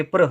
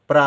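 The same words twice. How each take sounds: First: प्र with a short vowel after the r; short प्र for contrast. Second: प्रा with a long aa; long प्रा, shown as the other spelling; long aa vowel. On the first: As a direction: keep प्र brief, no long aa. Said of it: "क्योंकि प्र है". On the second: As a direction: open and lengthen the end of प्रा. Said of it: "प्रा होता तो बड़े आ की". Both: Shown as a demonstration.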